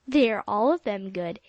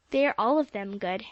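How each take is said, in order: First: Louder, playful echo of his words; Polly laughing at Jasper's worried face; teasing. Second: Encouraging. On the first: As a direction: tease him with his own line. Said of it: "said Polly, laughing at his face". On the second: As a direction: soothe her nerves kindly. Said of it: "said Jasper encouragingly". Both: A narrator's reading.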